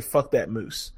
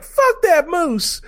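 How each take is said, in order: First: Said in the usual way. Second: High, loud, slow yell of disgust; shouting Fuck at a charging moose. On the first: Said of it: "how many times does this character get to say". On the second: Retold or imitated. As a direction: bellow it out at the dead moose. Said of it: "she yells out".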